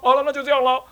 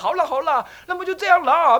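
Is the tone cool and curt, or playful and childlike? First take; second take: cool; childlike. First: It sounds cool, curt and businesslike. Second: It sounds playful, casual and childlike.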